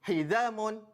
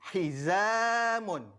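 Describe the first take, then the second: First: The long vowel is rushed and cut short. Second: The long vowel is held for two beats. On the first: The speaker calls it wrong. "membaca secara laju ... salah" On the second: The speaker calls it right. "kita perlu baca panjangnya dua, dua harakat"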